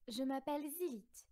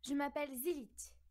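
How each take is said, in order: First: It is said in a calm, less energetic way. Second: It is said in a determined, energetic way.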